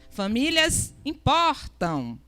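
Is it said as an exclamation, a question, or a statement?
exclamation. It is said as an emotional exclamation.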